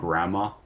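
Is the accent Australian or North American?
Australian. It is said in an Australian accent.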